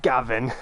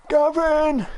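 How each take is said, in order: First: Said in the usual way. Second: High drawn-out call; mock holler, pitched way up. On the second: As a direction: call the name out, high and held. Calling out Gavin and Stacey name.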